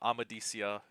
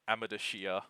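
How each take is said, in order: First: The consonant before the ending sounds like 's'. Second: The consonant before the ending sounds like 'sh'. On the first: This is how the audiobook readers say it. The speaker calls it right. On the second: This is how the reader imagined it while reading. The speaker calls it wrong.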